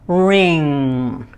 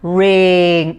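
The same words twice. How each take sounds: First: The final ng sound is held long. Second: The final ng sound is cut short. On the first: The speaker calls it right. "I want you to hold the N G" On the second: The speaker calls it wrong. "So not ring"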